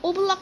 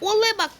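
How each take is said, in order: First: The name is said as one word, Oblak. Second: The name is split into two words, Ole Bak. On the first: The speaker calls it right. "ওবলাক হবে" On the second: The speaker calls it wrong. "ওলে বাক কোত্থেকে আসলো"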